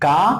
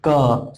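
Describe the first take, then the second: First: The consonant ends in a long aa vowel. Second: The consonant ends in a short a vowel. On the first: The speaker calls it wrong. "क plus आ नहीं, का नहीं" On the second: The speaker calls it right. "क plus अ"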